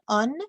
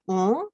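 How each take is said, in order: First: The vowel is oral, followed by an n. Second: The vowel is nasal with no n sound. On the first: "not nasal"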